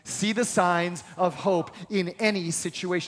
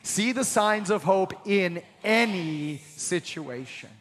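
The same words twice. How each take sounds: First: No word is given special stress. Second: The word any is stressed.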